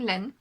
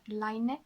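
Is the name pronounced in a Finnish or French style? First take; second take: French; Finnish. First: The name is pronounced in a French style. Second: The name is pronounced in a Finnish style. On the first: "I'm saying Len because I'm French" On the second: "Line is the correct Finnish pronunciation"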